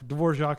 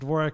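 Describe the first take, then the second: First: The name is pronounced the original European way. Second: The name is pronounced the Americanized way. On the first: It refers to the composer. "Dvorak is the composer" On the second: It refers to the keyboard's American namesake. "the corrupted uh, American version of the European name"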